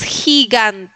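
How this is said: It is pronounced with Spanish sounds. The speaker calls it wrong. "nosotros diríamos gigant en español"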